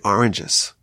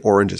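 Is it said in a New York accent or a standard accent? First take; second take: New York; standard. First: It is said in a New York accent. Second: It is said in a standard accent.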